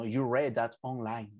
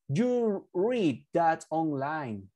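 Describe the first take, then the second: First: "read" said like the colour "red"; corrected sentence, "read" rhyming with "bed"; past-tense "read". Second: "read" with a long ee, like "reed"; slow model sentence, "read" rhyming with "need"; present-tense "read". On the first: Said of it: "because this is in past". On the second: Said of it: "Oh, sorry, you read". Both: Shown as a demonstration.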